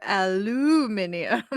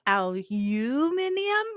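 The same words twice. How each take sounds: First: Aluminium with a stressed "loo", no "you" sound; aluminium said as a-LOO-minium. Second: Aluminium with a drawn-out, stressed "you"; aluminium said as al-YOOO-minium. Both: Shown as a demonstration. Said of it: "do they say it aluminium or aluminium".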